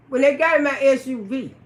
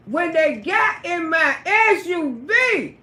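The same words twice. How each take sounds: First: Said in the usual way. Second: Slow, deliberate. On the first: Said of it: "when they got in my car". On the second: Shown as a demonstration.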